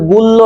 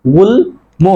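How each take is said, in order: First: গুল্ল with doubled l and no m; wrong pronunciation. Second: গুল্ম split as gul, mo; correct pronunciation. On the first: Teacher rules out the error, m lost in গুল্ল. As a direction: say "gullo" for গুল্ল. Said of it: "উচ্চারণ হবে গুল্ল নয়". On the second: Teacher corrects for students, clearly separated gul-mo in গুল্ম. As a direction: sound l then m in গুল্ম. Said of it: "আসলে উচ্চারণ হবে". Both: Shown as a demonstration.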